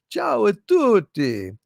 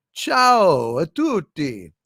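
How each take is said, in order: First: Said in the usual way. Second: Ciao a tutti, slow Italian pronunciation; Italian greeting. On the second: Shown as a demonstration.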